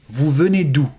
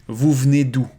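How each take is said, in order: Both takes have the same delivery.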